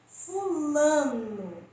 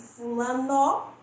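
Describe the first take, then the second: First: The last syllable is weak, ending like 'u'. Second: The last syllable is strong, ending with full 'o'. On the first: The speaker calls it right. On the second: The speaker calls it wrong.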